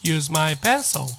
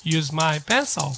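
No difference in how they are said.

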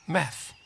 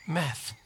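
Both takes have the same delivery.

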